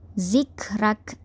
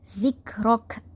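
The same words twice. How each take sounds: First: The r is pronounced light and thin. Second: The r is pronounced heavy and thick. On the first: This follows the Warsh reading. "Warsh akan membaca secara tarqiq iaitu nipis" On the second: This follows the Qalun reading. "ra sini ditebalkan akan bunyi zikrak. Rok. Okey, itu tebal"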